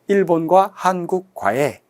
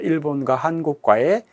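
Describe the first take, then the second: First: It is said with breaks between the words. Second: It is said smoothly without breaks between words. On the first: The speaker calls it wrong. "학습자가 그냥 띄어서 발음했어요" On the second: The speaker calls it right. "우리의 자연스러운 발음이죠"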